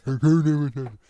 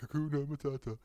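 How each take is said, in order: First: Loud, blunt tough-guy [name]; Sylvester Stallone. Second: Dad's mock-sung [name]; imitating dad singing. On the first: Retold or imitated. Impressing the friend with a movie star, loud tough-guy voice. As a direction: bark [name] like an action hero. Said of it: "Sylvester Stallone saying". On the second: Dad teasing his son with a song, mock sung. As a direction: sing it back dismissively like a teasing dad. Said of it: "It'd be like".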